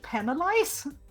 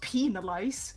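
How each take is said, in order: First: The first syllable sounds like 'pen'. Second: The first syllable sounds like 'pee'. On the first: The speaker calls it right. "don't you mean penalize?" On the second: The speaker calls it wrong. "Not penalize"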